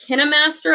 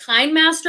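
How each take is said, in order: First: KineMaster said with a short i, as "KIN-uh-master"; alternative pronunciation guess. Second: KineMaster said with "Kine" rhyming with "mine"; first pronunciation guess. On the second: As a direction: say KineMaster as "KYNE-master". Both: Shown as a demonstration. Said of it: "don't know how to pronounce it".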